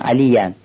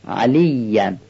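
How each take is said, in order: First: The middle consonant is short, not doubled. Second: The middle consonant is held long, doubled. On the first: The speaker calls it wrong. "ما بعضی وقتا تشدید خوب نمیگیم، میگیم" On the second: The speaker calls it right. "در حالی که یه اینجا تشدید داره"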